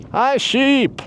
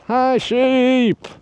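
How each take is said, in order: First: Put-on a failed Irish accent that comes out Scottish, high and loud; Irish accent gone Scottish. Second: An attempt at an Irish accent, high and loud; mock Irish accent. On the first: Hiker retries an Irishman's greeting to sheep, in a Scottish-sounding accent. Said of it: "Yeah, Scottish". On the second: Hiker greets a sheep, imitating an Irishman's accent. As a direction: greet the sheep like an Irishman, but it drifts Scottish. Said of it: "every time I tried to mimic his accent".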